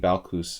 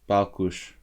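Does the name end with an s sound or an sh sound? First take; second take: s; sh. First: The name ends with an s sound. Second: The name ends with an sh sound. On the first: This may be the way others say it. "But maybe Balkus" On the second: This is the Hungarian way of saying it. "I would say Balkush in, in Hungarian"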